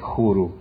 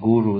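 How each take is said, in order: First: The word begins with a breathy h sound. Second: The word begins with a hard g sound. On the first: This is how people in the south say it. "they say huru" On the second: This is the standard way most people say it. "instead of saying guru"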